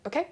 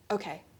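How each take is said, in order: First: The pitch rises at the end. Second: The pitch falls at the end. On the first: It sounds like she will keep going. "end my sentences in upspeak, so go up at the end" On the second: It sounds finished. "instead of going"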